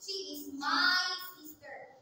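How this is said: The stress is on my.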